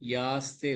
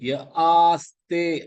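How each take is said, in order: First: The two words are merged into one syllable. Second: The two words are kept as separate syllables. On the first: The speaker calls it wrong. "யாஸ்தே இல்ல" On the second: The speaker calls it right.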